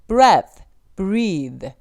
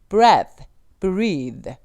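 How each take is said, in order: No difference in how they are said.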